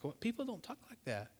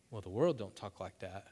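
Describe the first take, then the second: First: Quiet, high-pitched disbelief; taken-aback cashier. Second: Said in the usual way. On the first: Acted. Cashier amazed by a customer's thanks, softly incredulous. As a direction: softly act out astonishment. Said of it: "That lady's like".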